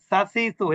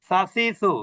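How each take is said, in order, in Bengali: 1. স্বরধ্বনিগুলো ছোট রাখা হয়। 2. স্বরধ্বনিগুলো ছোট রাখা হয়।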